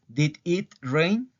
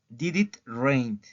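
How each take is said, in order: First: Did and it are said as separate words. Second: Did and it are linked into one sound. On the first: The speaker calls it wrong. "No digo did it rain" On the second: The speaker calls it right. "hago un enlace aquí"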